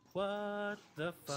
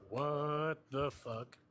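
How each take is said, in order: First: It is said in a higher, normal voice. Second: It is said in a deeper voice.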